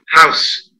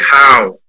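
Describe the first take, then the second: First: The final consonant sound is clearly pronounced. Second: The final consonant sound is dropped. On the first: The speaker calls it right. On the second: The speaker calls it wrong.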